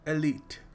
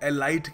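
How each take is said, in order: First: The second vowel sounds like 'ee'. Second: The second vowel sounds like 'eye'. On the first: The speaker calls it right. "सही तरीके से pronounce करने का तरीका है एलीट" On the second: The speaker calls it wrong. "बहुत सारे लोग एलाइट कहते हैं"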